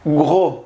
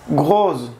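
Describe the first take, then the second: First: Gros with a silent s; corrected French gros. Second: Gros said with the s sounded; wrong take. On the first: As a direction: gros said as gro. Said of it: "se pronuncia gros, sin S". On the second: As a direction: gros with a buzzing final s. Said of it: "Perdón, se pronuncia gros". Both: Shown as a demonstration.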